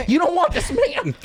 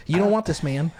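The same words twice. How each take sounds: First: High, laughing mock plea; hammed-up plea. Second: Said in the usual way. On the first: Homeowner talking a robber out of it, hammed-up high plea. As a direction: plead it in a silly raised voice.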